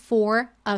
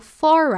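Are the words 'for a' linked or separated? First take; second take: separated; linked. First: The two words are said apart, not linked. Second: The two words run together like one word. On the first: The speaker calls it wrong. "ao invés de" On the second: The speaker calls it right. "eu estou aqui for a"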